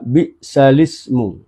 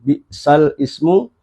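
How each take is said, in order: First: The words run together as one 'bi'salismu'. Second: The words are said apart, 'al' then 'ismu'.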